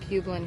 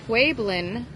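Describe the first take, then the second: First: It is said without a W sound. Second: It is said with a W sound. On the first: The speaker calls it wrong. "it's not Pueblan" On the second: The speaker calls it right. "it's pronounced like it has a W in it"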